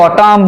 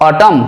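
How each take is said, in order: First: অটাম with an extra n hummed after the m; wrong pronunciation. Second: অটাম ending cleanly on m; correct pronunciation. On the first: Teacher showing what we don't say, অটাম with sounded final n. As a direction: drag out the end of অটাম as if sounding the n. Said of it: "এমন নয়". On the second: Teacher showing the word ends on m, অটাম with silent n. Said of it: "ময়ে শেষ হচ্ছে". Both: Shown as a demonstration.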